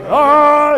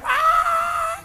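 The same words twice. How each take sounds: First: It is a manly, deeper scream. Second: It is a feminine, high-pitched scream.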